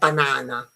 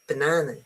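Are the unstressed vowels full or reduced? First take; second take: full; reduced. First: The unstressed vowels are said as full vowels. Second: The unstressed vowels are reduced to schwa. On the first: The speaker calls it wrong. "it's not banana" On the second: The speaker calls it right. "these two are schwas"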